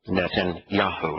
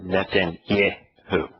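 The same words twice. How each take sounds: First: The third syllable is said as 'yah'. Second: The third syllable is said as 'yeh'. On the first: The speaker calls it right. "the part that the name that he is mispronouncing as Yeh is actually in his name" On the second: The speaker calls it wrong. "It's not"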